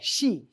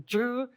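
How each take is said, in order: First: The name begins with an sh sound. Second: The name begins with a z sound. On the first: The speaker calls it right. "it's just like S H E, like the female pronoun" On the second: The speaker calls it wrong. "Oftentimes they say it like a Z"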